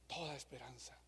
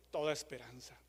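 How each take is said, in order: First: "Toda esperanza" said low and almost breathless; "Toda esperanza" dropped to a low, despairing hush; hushed and sinking. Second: Said in the usual way. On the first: Acted. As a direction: let "Toda esperanza" fade away to near silence. Repeats phrase, voice sinking.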